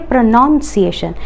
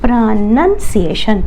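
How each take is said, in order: First: The second syllable sounds like 'noun'. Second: The second syllable sounds like 'nun'. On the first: The speaker calls it wrong. "they mispronounce it. They say pronunciation" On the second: The speaker calls it right. "when it is it becomes noun, it is pronunciation. Mind the difference"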